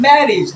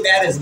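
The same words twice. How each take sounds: First: ম্যারেজ said as MAE-rij; correct pronunciation demo. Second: ম্যারেজ ending in an open "-ej"; the everyday "-ej" ending on ম্যারেজ; common mispronunciation. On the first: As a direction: end ম্যারেজ on a short "-ij". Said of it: "তারপর হবে কি?". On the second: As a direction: say ম্যারেজ as "mae-rez". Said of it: "আমরা বলি ম্যারেজ". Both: Shown as a demonstration.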